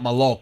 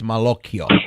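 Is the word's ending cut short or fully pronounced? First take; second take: cut short; fully pronounced. First: The word ends early, cutting off the final syllables. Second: The word is said in full, ending with a vowel. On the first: The speaker calls it wrong. "it's not maloc" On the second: The speaker calls it right. "it's malocchio"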